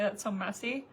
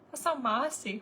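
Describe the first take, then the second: First: The last word has an 'eh' vowel. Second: The last word has an 'ah' vowel. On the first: The standard way of saying it. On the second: A child's accented way of saying it.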